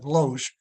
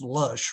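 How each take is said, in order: First: The name is said with a different vowel. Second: The name sounds exactly like the word lush. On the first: This is how he had always heard it said. The speaker calls it wrong. "You do know you're mispronouncing that" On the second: This is how the family said the name. The speaker calls it right. "it is actually pronounced Lush"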